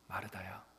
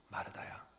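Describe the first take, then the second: First: The name is said quietly and softly. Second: The same.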